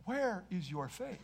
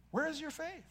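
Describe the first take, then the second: First: Quietly asking "Where is your faith?" with "where" rising; soft question. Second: "Where is your faith?" higher and soft, "where" lifted; higher, pleading ask. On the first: Acted. Jesus gently questioning his frightened disciples, softly. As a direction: ask it softly, gently probing. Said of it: "but he said to them". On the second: Shown as a demonstration. Preacher repeating Jesus's question, higher and softer. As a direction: lift the question up, softly urgent.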